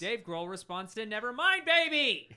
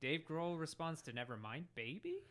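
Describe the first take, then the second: First: It is said as an excited exclamation. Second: It is said with a questioning rising tune.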